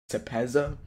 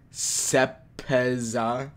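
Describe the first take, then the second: First: Said in the usual way. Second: "Sepeza" very slowly, syllable by syllable; "Sepeza" drawn out and tentative; sounding it out. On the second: Real, not acted. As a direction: sound out "Sepeza" in separate stretched pieces, ending up. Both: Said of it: "am I correct?".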